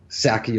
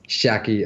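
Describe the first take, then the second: First: The name begins with an 's' sound. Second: The name begins with a 'sh' sound. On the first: The speaker calls it wrong. "and not Saki" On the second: The speaker calls it right. "it's pronounced Shaki"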